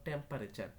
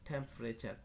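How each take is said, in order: The two takes are said the same way.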